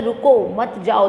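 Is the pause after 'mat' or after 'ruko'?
after ruko. The pause comes after 'ruko'.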